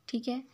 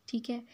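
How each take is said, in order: The two takes are said the same way.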